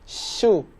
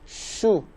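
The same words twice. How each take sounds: First: The sh is said thin before rounding. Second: The sh is said with rounded lips already. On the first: The speaker calls it right. "tapi shu" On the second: The speaker calls it wrong. "Jangan shu"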